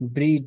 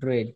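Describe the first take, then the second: First: The vowel is a long 'ee' sound. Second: The vowel is a short 'eh' sound. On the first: The speaker calls it wrong. "ব্রিড না" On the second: The speaker calls it right. "শব্দের উচ্চারণটা হবে ব্রেড"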